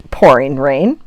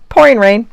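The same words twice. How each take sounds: First: Said in the usual way. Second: "pouring rain" said again higher and louder; emphatic repeat. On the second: Shown as a demonstration. Vlogger gleefully repeating that it is "pouring rain", higher and louder.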